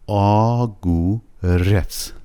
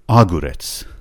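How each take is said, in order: First: The stress is on the last syllable. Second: The stress is on the first part. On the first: The speaker calls it right. "آگورت درسته، رتسشش که فشار میاریم روش" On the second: The speaker calls it wrong. "اگه میخواست فشارش روی نیمه اول کلمه باشه، اون موقع میشد اگوریت"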